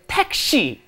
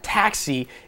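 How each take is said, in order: First: The word is said with Korean-style pronunciation. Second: The word is said with English-style pronunciation. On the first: The speaker calls it right. "it's 택시" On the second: The speaker calls it wrong. "your pronunciation is all wrong. It's not taxi"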